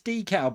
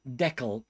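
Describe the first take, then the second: First: The first syllable does not sound like 'deck'. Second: The first syllable sounds like 'deck'. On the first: "No, I believe it's decal" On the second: "pronounced like deck the halls"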